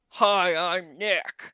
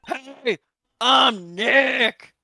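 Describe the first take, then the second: First: It is said quietly. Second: It is said loudly.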